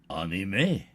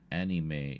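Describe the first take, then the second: First: The word is said in a French-sounding way. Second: The word is said in a plain English way.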